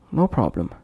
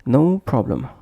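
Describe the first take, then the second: First: NO PROBLEM run together as one short unit; linked words. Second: NO held full, apart from PROBLEM; separate words. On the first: Teacher showing learners word connection, linked words. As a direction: glide from "no" straight into "problem". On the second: Teacher showing learners word connection, separate words. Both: Shown as a demonstration. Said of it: "would become".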